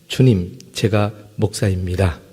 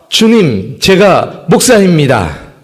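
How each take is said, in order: First: It is said fairly softly. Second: It is said very loudly.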